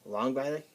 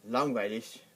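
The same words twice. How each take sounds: First: The final G is cut off like a stop. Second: The final G sounds like a soft ch. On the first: "They stop the G pretty quickly" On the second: "pronounce it like a C H at the end"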